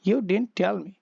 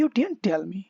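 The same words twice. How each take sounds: First: Said in the usual way. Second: "You didn't tell me" lifted as a question, pitch rising at the end; rising question tune on "me"; questioning rise. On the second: Shown as a demonstration. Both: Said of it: "तो इसका intonation कैसा बनेगा?".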